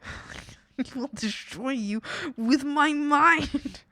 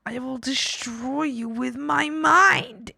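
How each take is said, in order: First: Slow, drawn-out mock menace, laughing; quoting her mock threat. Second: Slow, drawn-out mock menace; mock villain threat. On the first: Streamer replays her viral clip, slow mock menace. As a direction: replay the clip's villain line. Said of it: "that has been stuck in my head". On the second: Gamer hams up a mind-destroying threat, slowly.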